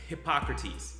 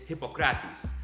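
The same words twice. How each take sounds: First: The name is pronounced the American way. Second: The name is pronounced the Greek way. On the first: The speaker calls it wrong. "it's not" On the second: The speaker calls it right.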